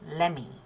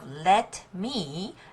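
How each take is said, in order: First: The T sound blends into the following M. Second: The T sound is clearly released before M. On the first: "the T sound is assimilated to the next sound, M" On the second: "instead of let me"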